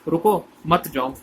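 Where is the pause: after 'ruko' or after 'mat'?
after ruko. The pause comes after 'ruko', not after 'mat'. Stop, don't go. The speaker calls it right.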